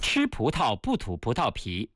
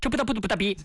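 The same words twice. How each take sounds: First: It is said at a normal speed. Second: It is said faster still.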